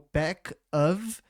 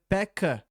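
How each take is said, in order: First: The word 'of' is said in full. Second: The word 'of' is reduced to an 'a' sound.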